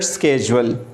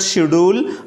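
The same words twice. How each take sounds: First: It is said with an American pronunciation. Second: It is said with a British pronunciation. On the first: "in American English it is pronounced it schedule" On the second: "In Britain English we pronounce it schedule"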